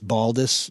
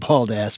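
First: The name ends with a weak 'us' sound. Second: The name ends with a full 'ass' sound. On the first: The speaker calls it right. "it's Baldus" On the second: The speaker calls it wrong. "not bald ass"

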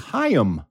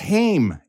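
First: The name is said as two syllables. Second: The name is said as one syllable. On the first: The speaker calls it right. "is actually Haim" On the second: The speaker calls it wrong. "which a lot of people pronounce as Haim"

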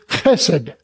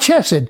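First: It begins with a throaty ch sound. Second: It begins with a hard k sound. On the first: The speaker calls it right. "It is chesed" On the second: The speaker calls it wrong. "and it's not chesed"

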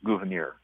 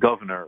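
First: It does not sound like the word governor. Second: It sounds like the English word governor. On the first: The speaker calls it right. "it's Gouverneur" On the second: The speaker calls it wrong. "but it's not Governor"

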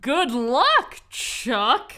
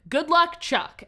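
First: There is a pause before the final word. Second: The three words run together like a name. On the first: It wishes Chuck luck. "the intonation changes to" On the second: It is the man's nickname. "his nickname that he has in the movie"

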